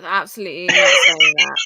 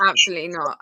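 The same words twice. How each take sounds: First: Emphatic loud denial. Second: Said in the usual way. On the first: Real, not acted. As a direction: press it hard, stretch it out. Flustered denial of accusation.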